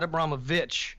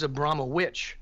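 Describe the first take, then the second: First: The ending is said with a v, like vich. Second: The ending is said with a w, like witch. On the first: The speaker calls it wrong. "not Abramovich" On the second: The speaker calls it right. "the actual pronunciation of her name is Abramowitch"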